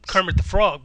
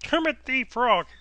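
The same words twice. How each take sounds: First: It is said in the speaker's normal voice. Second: It is said in a Kermit the Frog voice.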